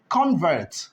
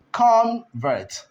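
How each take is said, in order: First: Said in the usual way. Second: "convert" in two separate beats, con, then vert; higher-pitched "convert", cut into con and vert; split into syllables. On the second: Shown as a demonstration. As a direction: break "convert" after con with a short pause. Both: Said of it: "This is equally a disyllabic".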